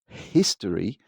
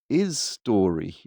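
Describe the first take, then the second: First: The word begins with an audible H sound. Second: The H is dropped, sounding like is story. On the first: "you don't pronounce history" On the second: "you just go is story"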